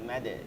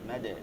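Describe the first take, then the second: No difference in how they are said.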